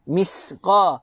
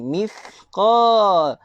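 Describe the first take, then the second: First: The consonant after 'mi' is a plain s. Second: The consonant after 'mi' is a th. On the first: The speaker calls it wrong. "Jangan sin" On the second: The speaker calls it right. "Lidah kena keluar"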